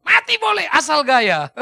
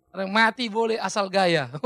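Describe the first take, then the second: First: Loud, drawn-out proclamation; swaggering local motto. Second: Said in the usual way. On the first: Acted. Preacher mimicking Siantar folk's motto for laughs, loud swagger. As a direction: belt it out slowly with a laugh.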